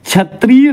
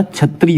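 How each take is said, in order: First: क्षत्रिय with long ee, "chhatreey"; wrong stretched middle vowel in क्षत्रिय; mispronunciation. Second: Said in the usual way. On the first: Shown as a demonstration. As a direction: say क्षत्रिय as chha-tree-y, leaning on tree. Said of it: "क्षत्रिय नहीं होता". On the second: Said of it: "क्षत्रिय होता है".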